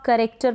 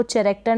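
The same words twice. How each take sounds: First: करेक्टर said with a hard "k" at the start; correct silent-H pronunciation. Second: चैरेक्टर said with a "ch" sound at the start; wrong pronunciation with CH. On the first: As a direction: say करेक्टर as "ka-rek-ter", H silent. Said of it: "इसको आप करेक्टर पढ़ेंगे". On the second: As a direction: misread चैरेक्टर as "cha-rek-ter". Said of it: "सीएच को च पढ़ दिया, नहीं". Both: Shown as a demonstration.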